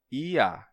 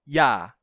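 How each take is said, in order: First: It is two vowels in separate syllables. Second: It starts with a consonant glide before the vowel. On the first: "você tem vogal, vogal" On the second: "esse sonzinho do ia é consonantal"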